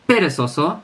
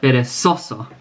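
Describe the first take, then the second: First: The stress falls away from the second-last syllable. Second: The stress falls on the second-last syllable. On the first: The speaker calls it wrong. "it's not perezoso" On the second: The speaker calls it right. "but perezoso"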